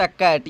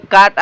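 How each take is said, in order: First: कैट with "ae" vowel as in English "cat"; correct pronunciation. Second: काट with long "aa" vowel, "kaat"; wrong pronunciation. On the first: Teacher confirms the correct reading, कैट said with "ae". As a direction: say कैट with a front "ae". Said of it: "ये उच्चारण हो गया शुद्ध". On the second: Teacher shows students the cheap-English reading, काट said with "aa". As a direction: read काट with an open "aa". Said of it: "cheap अंग्रेजी पढ़े हैं तो इसको पढ़ना चाहिएगा". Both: Shown as a demonstration.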